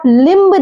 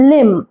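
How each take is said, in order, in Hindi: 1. अंत में b की ध्वनि बोली जाती है। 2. शब्द m पर खत्म होता है, b साइलेंट है। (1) "इसे आप लिम्ब नहीं पढ़ेंगे" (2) "ये है लिम"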